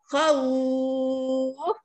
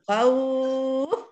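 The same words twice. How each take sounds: First: The vowel is lengthened for six counts. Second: The vowel is lengthened for four counts.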